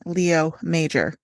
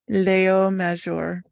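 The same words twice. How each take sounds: First: The name is said with an English accent. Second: The name is said with a French accent. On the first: "in a bad English accent" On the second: "Say it in the French accent again"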